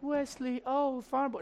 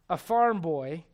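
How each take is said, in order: First: High, dreamy mock swoon; swooning girl. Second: Said in the usual way. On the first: Princess Bride fan pining for the farm boy, mock swoon. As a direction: sigh it out high like a smitten fan. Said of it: "every girl that's ever watched Princess Bride". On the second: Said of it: "when I say farm boy".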